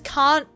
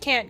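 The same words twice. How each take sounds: First: The word is said in an Australian accent. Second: The word is said in an American accent. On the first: "can't doesn't sound right anymore" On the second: "a lot of shows would be like American. And so I just keep saying can't"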